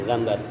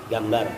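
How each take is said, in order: No difference in how they are said.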